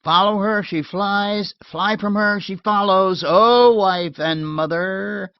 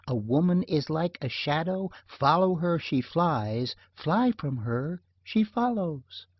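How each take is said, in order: First: Loud, higher teasing call; calling through door. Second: Said in the usual way. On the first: Acted. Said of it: "I called". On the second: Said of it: "What's that thing Fred's always quoting".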